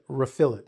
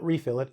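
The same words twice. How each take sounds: First: The stress is on the second syllable. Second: The stress is on the first syllable. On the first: The speaker calls it right. "I will put more of an emphasis on the last part" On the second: The speaker calls it wrong.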